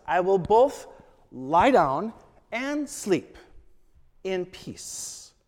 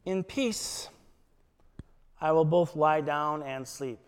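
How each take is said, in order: First: "both" louder and held, then "lie down and sleep" drawn out slowly; stress on both. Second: Said in the usual way. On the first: Shown as a demonstration. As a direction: lean on "both", then let the line slow down. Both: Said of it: "It's doubly emphasized".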